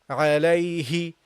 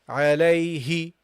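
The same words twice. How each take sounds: The two takes are said the same way.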